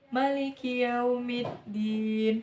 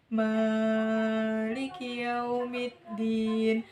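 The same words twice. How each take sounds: First: The vowel after the m is kept short. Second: The vowel after the m is held long. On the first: "huruf mim yang di lafal Maliki itu dibaca pendek" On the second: "huruf mim di lafal Maliki ini dibaca panjang"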